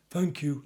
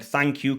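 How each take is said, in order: First: "Thank you" softer, caught on a gasp. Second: Said in the usual way. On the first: Retold or imitated. Customer in the mask thanks her, gasping, soft. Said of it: "like that". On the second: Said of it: "exactly what it sounded like".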